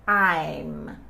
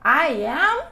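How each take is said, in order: First: The words merge into one short syllable. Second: Two separate words are said in full. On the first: "In this case, it's I'm" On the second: "If I want to say I am, I say I am"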